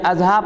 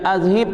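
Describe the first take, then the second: First: The last vowel is an 'a' sound. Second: The last vowel is an 'i' sound. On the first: The speaker calls it wrong. "bukan azhab" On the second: The speaker calls it right. "Baca azhib tu"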